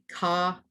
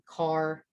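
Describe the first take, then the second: First: The final R sound is dropped. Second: The final R sound is clearly pronounced. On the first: This is how northerners say it. "up north" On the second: This is how locals here say it. "down here, where we stress the R a little more"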